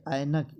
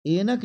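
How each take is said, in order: First: ऐनक with a wide "ai" at the start; ऐनक as "ainak", the model version; correct pronunciation. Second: ऐनक with a narrow "e", like "enak"; ऐनक as "enak", raised as the mistake; wrong pronunciation. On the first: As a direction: open the first vowel of ऐनक to "ai". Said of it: "ये सही है बच्चे". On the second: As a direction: close the first vowel of ऐनक to "ay". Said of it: "ऐ की मात्रा डालेंगे". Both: Shown as a demonstration.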